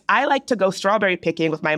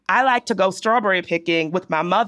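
First: The sentence is said in a general accent. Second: The sentence is said in a D.C. accent. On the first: "ask them to say this sentence" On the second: "If they have a D.C. accent, it will sound something like this"

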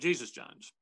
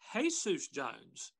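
First: Jesus is said the English way, like jee-zus. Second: Jesus is said the Spanish way, like hay-soos. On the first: The speaker calls it wrong. "instead of Jesus Jones" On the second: The speaker calls it right. "So it should actually be pronounced Jesus Jones"

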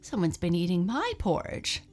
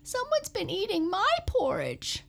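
First: It is said with a shocked gasp. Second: It is said in a high squeak.

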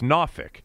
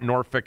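First: Norfolk is said the way locals say it. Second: Norfolk is said in a non-local way. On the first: The speaker calls it right. "exactly the way it's pronounced by people who are from down there" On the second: The speaker calls it wrong. "It's not Norfolk"

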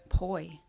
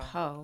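First: The vowel glides from 'oh' to 'ee'. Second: The vowel is a plain 'oh' sound. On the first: The speaker calls it right. "And what did you say? Poi" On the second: The speaker calls it wrong. "You said po"

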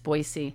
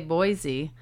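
First: It uses the local residents' pronunciation. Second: It uses the common outsider pronunciation. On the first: The speaker knows the area well. "if you're a local, or if you've spent a lot of time down there" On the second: The speaker is not from the area. "People always say Boise"

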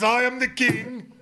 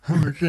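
First: It is said proudly and triumphantly. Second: It is said in a pained, near-crying voice. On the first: The speaker boasts of being the ruler. "he wasn't saying like" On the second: The speaker is hurting and miserable. "That was a lot of pain in the man's voice"

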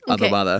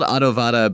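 First: The middle consonant sounds like a B. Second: The middle consonant sounds like a V. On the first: "but it's pronounced like adobada" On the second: "It's spelled adobada"

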